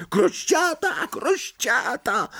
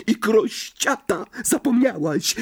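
First: Very high, drawn-out taunt; slow, piercingly high-pitched teasing cry; gleeful shrieking. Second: High-pitched goading jibe; high, needling imp voice; taunting hiss. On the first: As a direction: shriek it like a jeering imp. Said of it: "wrzeszcząc". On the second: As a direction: hiss it spitefully into an ear. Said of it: "syknął jej w ucho Irytek". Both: A narrator's reading.

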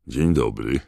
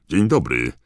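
First: Said in the usual way. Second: Higher, louder jaunty greeting; brisk, hearty. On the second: A narrator's reading. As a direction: greet a stranger briskly and loudly. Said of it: "zagadnął go dziarsko pan Weasley". (dziarskie, głośne powitanie)

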